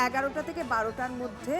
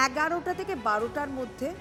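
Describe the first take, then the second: No difference in how they are said.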